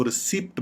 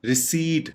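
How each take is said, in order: First: "रिसिप्ट" with short i and sounded p; wrong pronunciation. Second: "रिसीट" as ri-SEET, silent p; correct pronunciation. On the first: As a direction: say "रिसिप्ट" as ri-SIPT. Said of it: "इसकी गलत pronunciation". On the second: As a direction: say "रिसीट" with long ee and no p. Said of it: "इस तरीके से pronounce". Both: Shown as a demonstration.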